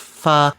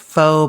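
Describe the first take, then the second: First: The word sounds different from 'faux'. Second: The word sounds like 'faux'. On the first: This is how it is meant to be said. The speaker calls it right. "it's supposed to be pronounced pho" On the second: This is how many people commonly say it. The speaker calls it wrong. "They pronounce it pho"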